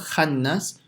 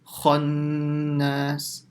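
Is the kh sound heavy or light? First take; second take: light; heavy. First: The kh sound is light, with a thin mouth. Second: The kh sound is heavy, with a full mouth. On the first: The speaker calls it wrong. "So it's not khannas" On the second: The speaker calls it right. "So kha is full mouth"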